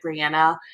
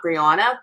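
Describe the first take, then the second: First: Brianna with a flat 'an' as in Anna; Brianna, middle vowel short and open as in "cat"; Claire's pronunciation. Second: Brianna with a broad 'ah' in the middle; Brianna, middle vowel long as in "father"; alternative pronunciation. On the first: Retold or imitated. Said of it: "why Claire pronounces it Brianna". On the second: Shown as a demonstration. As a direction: say Brianna as bree-AH-na. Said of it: "and not Brianna".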